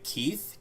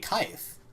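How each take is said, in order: First: The vowel sounds like a long 'ee'. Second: The vowel sounds like 'eye'. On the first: This is the usual English reading. "instead of it being like Keith" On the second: This is how another language would read it. "it would be Keith"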